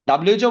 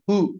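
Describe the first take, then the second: First: It is spelled out letter by letter. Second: It is pronounced as a single word.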